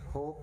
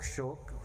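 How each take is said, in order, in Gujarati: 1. આ શબ્દની શરૂઆત સાદા 'h' અવાજથી થાય છે. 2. આ શબ્દની શરૂઆત 'sh' અવાજથી થાય છે. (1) "આપણે કાઠિયાવાડીમાં હોક કે છે" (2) "હોક શોક એક જ છે"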